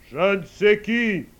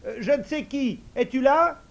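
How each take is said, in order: First: Slow, much louder commanding call; majestic old man calling. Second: Higher, louder unsure call; hesitant idiot calling. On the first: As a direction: summon the invisible servant like a lord. Old man calls his servant. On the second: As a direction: try the magic call timidly. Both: Acted.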